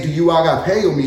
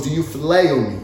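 First: Agapeo leaned on, falling off after it; stress on agapeo. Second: Phileo leaned on, quieter and lower; stress on phileo. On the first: Preacher setting agapeo against phileo, stressing agapeo. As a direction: hit "agapeo" as the key word. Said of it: "Now notice the third time, Jesus didn't say". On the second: Preacher showing Jesus's changed word, stressing phileo. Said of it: "He goes". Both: Shown as a demonstration.

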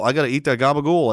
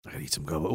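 First: Said in the usual way. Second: "gabagool" muttered much softer and lower; quiet mutter to self. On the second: Real, not acted. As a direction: mumble "gabagool" under the breath.

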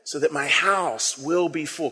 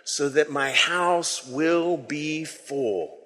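First: So that my house will be full drawn out slowly and softly; slow, soft reading. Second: So that my house will be full chanted very slowly in unison; slow group recitation. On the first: Shown as a demonstration. Pastor modelling the line slowly and softly for the congregation. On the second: Real, not acted. Congregation saying the line together, very slow and soft. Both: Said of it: "Can we say that line together?".

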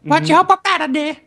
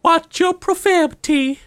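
First: High prissy voice copied back; mock scolding echo. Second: High, slow prissy scold; mock scolding. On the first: Echoing the friend's teasing in the same high voice. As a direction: parrot the squeaky scold. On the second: Teasing a friend who swore, in a high prissy voice. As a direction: wag a finger in a squeaky voice.

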